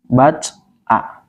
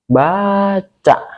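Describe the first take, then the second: First: The word is broken before the final vowel. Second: The word is said smoothly without a break. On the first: The word becomes unclear. The speaker calls it wrong. "Nggak bisa kita baca seperti ini" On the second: The word keeps its clear meaning. The speaker calls it right. "Kalau kita membacanya jelas"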